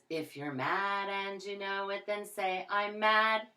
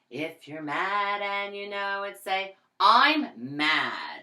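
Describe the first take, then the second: First: It is said flatly, without sounding angry. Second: It is said with an angry, coloured voice.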